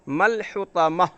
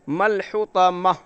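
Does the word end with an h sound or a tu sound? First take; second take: h sound; h sound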